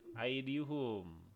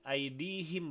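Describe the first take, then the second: First: The last syllable is said with a u vowel. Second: The last syllable is said with an i vowel. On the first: The speaker calls it wrong. "bukan aidihum" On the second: The speaker calls it right. "Jadi aidihim bacanya ya"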